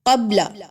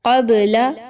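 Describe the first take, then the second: First: The b sound is cut off and held. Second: The b sound is released with a bounce. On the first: The speaker calls it wrong. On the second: The speaker calls it right.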